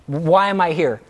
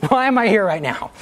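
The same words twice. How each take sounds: First: Said in the usual way. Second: Giggling disbelief at yourself; laughing. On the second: Real, not acted. Speaker laughing at own story to the class. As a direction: repeat it higher through a laugh.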